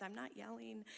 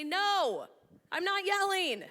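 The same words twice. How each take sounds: First: Said in the usual way. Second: Loud, high-pitched indignant denial; comic yelling. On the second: Acted. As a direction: yell the denial in mock protest. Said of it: "Are you yelling?".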